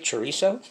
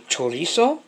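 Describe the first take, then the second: First: The word is said with an English accent. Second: The word is said with a Spanish accent. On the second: "I'll pronounce it the Mexican way"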